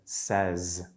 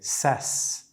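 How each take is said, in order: First: The word ends in a buzzing Z sound. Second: The word ends in a hissing S sound. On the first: The speaker calls it right. "the voiced Z, like the buzzing of a bee, in says at the end" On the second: The speaker calls it wrong. "when they say ses instead of"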